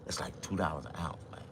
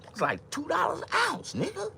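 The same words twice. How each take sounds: First: Said in the usual way. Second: Very high, squeaky price complaint; squealing outcry. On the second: Acted. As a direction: shriek the price in a falsetto.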